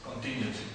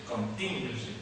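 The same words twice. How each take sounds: First: Contingency with the stress on the second syllable, con-TIN-gency. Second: Contingency said again with TIN stressed, falling at the end; stress on second syllable. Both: Shown as a demonstration. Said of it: "It straight goes there on the second syllable".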